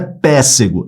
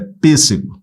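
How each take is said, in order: First: The first vowel is open. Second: The first vowel is closed. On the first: The speaker calls it wrong. "Não é" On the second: The speaker calls it right. "som fechado"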